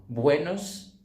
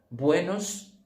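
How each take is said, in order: Both takes have the same delivery.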